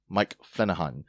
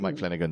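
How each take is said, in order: First: The middle consonant is an h sound. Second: The middle consonant is a g sound. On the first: The name is read with Spanish pronunciation rules. "as I like to say it, ... with a different language's pronunciation ... G become H" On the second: The name is read the usual English way. "It's really Mike Flanagan"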